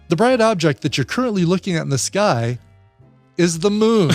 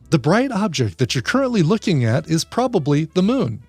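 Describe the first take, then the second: First: It is said passive-aggressively, with a pointed pause. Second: It is said in a neutral, matter-of-fact tone.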